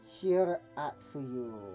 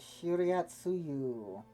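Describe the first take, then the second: First: The second syllable is said as 'ra'. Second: The second syllable is said as 'ri-a'. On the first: The speaker calls it right. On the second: The speaker calls it wrong.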